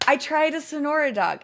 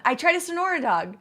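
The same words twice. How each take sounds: First: Excited. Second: Excited, high and loud. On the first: Streamer repeating to chat, still excited. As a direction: still high and loud, a bit settled. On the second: Excited streamer raving to chat about a Sonora dog. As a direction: gush about the hot dog. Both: Real, not acted.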